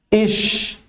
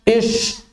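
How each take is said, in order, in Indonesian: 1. Bunyi sh diucapkan dengan bibir bergerak sedikit. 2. Bunyi sh diucapkan dengan bibir sangat monyong. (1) "bergerak sedikit aja, enggak sampai monyong" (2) "sambil monyong"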